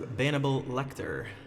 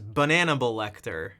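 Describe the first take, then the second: First: The first word is said with three syllables. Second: The first word is said with four syllables. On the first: The speaker calls it wrong. "I have been saying that wrong" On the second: The speaker calls it right. "it's funnier to say it correctly"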